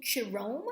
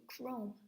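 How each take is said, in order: First: Chirome with an extra vowel, ch said as sh; mock mispronunciation chirome; chirome, the wrong way on purpose. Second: Chrome with a hard k, quiet and firm; the right way: chrome with k; chrome, k sound modelled softly; correct chrome. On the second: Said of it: "I'm saying chrome". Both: Shown as a demonstration.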